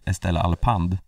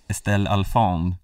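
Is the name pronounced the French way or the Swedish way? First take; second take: Swedish; French. First: The name is pronounced the Swedish way. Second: The name is pronounced the French way. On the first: "Tänk om svenska kommentatorer hade sagt" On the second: "fransk importerade"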